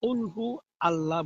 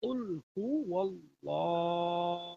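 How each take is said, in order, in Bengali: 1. 'Allah' আলাদাভাবে বলা হয়, সংযোগকারী 'w' ছাড়া। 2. 'huwa' সংযোগকারী 'w' দিয়ে 'Allah'-এর সাথে মিশে যায়। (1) "আমরা উল হু আল্লাহ বলি না।" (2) "এখানে আল্লাহ হবে না, ওয়াল্লাহ ওয়াল্লাহ।"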